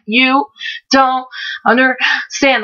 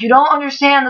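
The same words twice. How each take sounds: First: Halting, word-by-word imitation of breathlessness; struggling to talk. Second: Said in the usual way. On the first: Shown as a demonstration. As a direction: force out each word separately, higher, with gaps between. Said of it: "how I was talking 'cause I couldn't ... get anything out". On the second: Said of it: "That's literally how I was talking".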